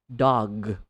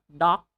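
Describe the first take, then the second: First: The word ends in a voiced g sound. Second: The word ends in a voiceless k sound. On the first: The speaker calls it right. "you say dog" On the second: The speaker calls it wrong. "not doc"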